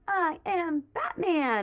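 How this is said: It is said with excitement.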